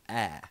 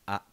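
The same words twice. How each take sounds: First: The vowel glides like an English diphthong. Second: The vowel is pure and steady throughout. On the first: The speaker calls it wrong. "or a" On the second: The speaker calls it right. "Pronounce it as a"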